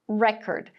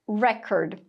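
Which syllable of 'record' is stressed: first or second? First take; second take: first; first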